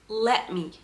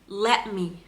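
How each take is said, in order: Both takes have the same delivery.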